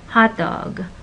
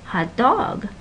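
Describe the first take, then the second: First: The stress is on hot. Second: The stress is on dog. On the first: It is a compound with its own meaning. "the stress goes on the first syllable" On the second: It is a literal description of a dog. "the dog is more important than how he feels"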